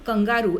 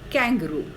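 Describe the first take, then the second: First: The word has a Hindi-style pronunciation. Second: The word has an English-style pronunciation. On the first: The speaker calls it wrong. "बहुत सारे लोग English में जब use करते हैं तो उस एनिमल का नाम कंगारू ऐसे लेते हैं, तो ये बिल्कुल रॉन्ग है।" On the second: The speaker calls it right. "उसको आपने ऐसे बोलना चाहिए कैंगरू।"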